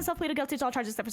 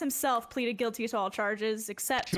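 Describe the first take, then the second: First: It is spoken very quickly. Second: It is spoken at an ordinary speed.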